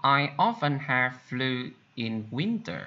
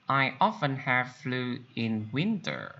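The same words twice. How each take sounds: The two takes are said the same way.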